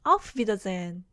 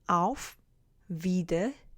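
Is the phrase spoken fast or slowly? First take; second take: fast; slowly. First: The phrase is spoken quickly. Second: The phrase is spoken slowly and carefully.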